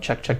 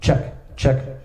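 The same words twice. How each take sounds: First: The voice sounds dry with no added echo. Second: The voice sounds with added reverb echo.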